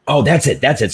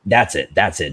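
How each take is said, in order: First: Higher and louder, suddenly getting it; light up as the idea clicks; excited realization. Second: Said in the usual way. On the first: Real, not acted. To friends, realizing the premise: excited "that's it".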